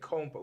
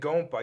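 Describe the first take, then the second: First: The word begins with a voiceless K sound. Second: The word begins with a voiced G sound. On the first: The speaker calls it right. "you're saying Compa with C" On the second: The speaker calls it wrong. "you're not saying Gompa"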